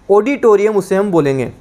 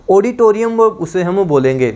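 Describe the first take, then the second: No difference in how they are said.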